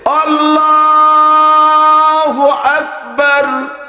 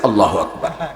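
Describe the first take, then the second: First: It is said slowly, drawn out. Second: It is said quickly, not drawn out.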